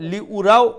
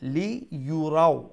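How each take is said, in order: First: The middle syllable starts with a plain 'u' vowel. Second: The middle syllable starts with a 'y' glide. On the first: The speaker calls it wrong. "লি উরাও অমলাখান হইতো না" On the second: The speaker calls it right. "ইয়া পেশ ইউ"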